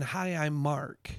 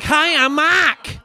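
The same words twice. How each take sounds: First: Said in the usual way. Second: Much louder, higher Boston shout; imitating a Boston kid's hollered introduction; Boston accent. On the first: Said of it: "I don't realize he's saying". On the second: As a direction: belt it out slowly with a broad Boston accent, R dropped. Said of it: "It's a Boston accent".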